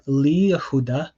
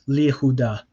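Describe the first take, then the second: First: The 'ye' syllable of Yehuda is kept. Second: The 'ye' syllable of Yehuda is dropped. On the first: The speaker calls it wrong. "it's not li Yehuda" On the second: The speaker calls it right. "it just disappears altogether"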